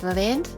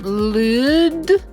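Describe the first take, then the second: First: The vowel is a short i sound. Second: The vowel is a long oo sound. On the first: The speaker calls it right. "but lid" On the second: The speaker calls it wrong. "and not lewd"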